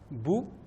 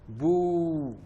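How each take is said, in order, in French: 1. La voyelle est courte. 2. La voyelle est prolongée. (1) "lorsque j'aurai la dhamma, ça donne le son bou" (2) "la voyelle longue, le waw"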